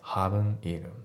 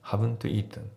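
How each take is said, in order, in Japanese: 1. haven'tのtは脱落する。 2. haven'tのtははっきり発音される。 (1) "haven't のt がね、まあ、ちょっと抜けてるような感じですね。" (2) "haven't eaten じゃなくて"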